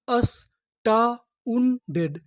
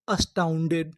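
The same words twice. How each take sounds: First: Very slow, every syllable; slow drawn word. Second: Said in the usual way. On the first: Shown as a demonstration. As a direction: sound out अस्टाउंडेड slowly. (धीरे-धीरे खींचकर) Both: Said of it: "तो हमारी पूरी meaning क्या बनी?".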